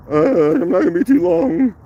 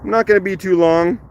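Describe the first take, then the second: First: Higher, put-on morning voice. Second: Said in the usual way. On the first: Shown as a demonstration. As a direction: pitch it up as a joking morning voice. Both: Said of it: "that's my morning voice".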